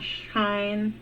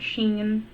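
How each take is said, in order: First: The name rhymes with the word line. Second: The name rhymes with the word green. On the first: "not Shine" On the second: "not Sheen"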